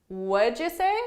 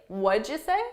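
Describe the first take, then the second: No difference in how they are said.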